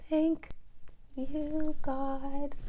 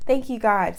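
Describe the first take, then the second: First: High, hushed thanks to God; grateful prayer. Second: Louder, emphatic thanks to God; firm thanks. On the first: Thanking God that dad will come, high and hushed. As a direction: lift it up softly like a breathless prayer. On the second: Thanking God again for dad coming, louder and firm. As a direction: say Thank you, God with full conviction. Repeats thanks more firmly. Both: Real, not acted.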